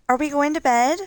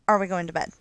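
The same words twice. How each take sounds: First: The voice rises at the end like a question. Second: The voice falls at the end like a statement.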